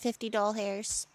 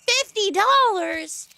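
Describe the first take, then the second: First: The word is said playfully as doll hairs. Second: The word is said as ordinary dollars.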